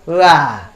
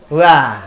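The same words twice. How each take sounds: The two takes are said the same way.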